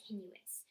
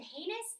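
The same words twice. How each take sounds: First: HENUOUS, an extra syllable slipped into heinous; mispronunciation. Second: HEINOUS as first guessed from reading; mispronunciation. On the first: Reader confessing how a book word came out, mispronunciation. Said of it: "it was henuous". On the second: Reader confessing how she first said a book word, mispronunciation. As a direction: show the mistaken reading of HEINOUS. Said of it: "the first time I said". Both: Shown as a demonstration.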